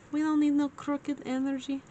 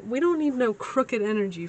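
First: Higher put-on voice; playful mock voice. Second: Said in the usual way. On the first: Reader joking about a crooked setup, playful mock voice. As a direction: repeat it in a higher, silly voice. Mock repeat of own phrase.

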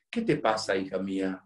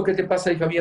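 First: Low, gentle fatherly question; tender concern. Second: Said in the usual way. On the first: Retold or imitated. Priest asks the silent girl at confession, tender concern. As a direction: ask it softly and low, with care.

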